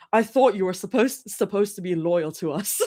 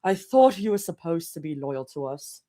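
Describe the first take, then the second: First: Put-on clumsy British accent with a laugh creeping in; very bad British accent. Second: British RP, steady and unbroken; lower, measured British RP accent; better British accent. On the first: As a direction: attempt a British accent, badly. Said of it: "Very bad British accent". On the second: Acted. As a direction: have a careful second go at an RP British accent. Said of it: "I can do a better British accent".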